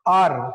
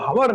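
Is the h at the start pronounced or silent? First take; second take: silent; pronounced. First: The word starts with a vowel, no h. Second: The word starts with an h sound. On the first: The speaker calls it right. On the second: The speaker calls it wrong.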